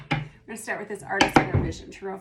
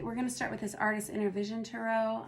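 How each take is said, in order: First: Louder, faster, pushing past the hoarseness; louder retake. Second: Hoarse, worn voice; losing voice. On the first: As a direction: push the voice out, quick and loud. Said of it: "voice does not reflect that". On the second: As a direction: speak through a failing voice. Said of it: "I'm losing my voice a little bit". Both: Real, not acted.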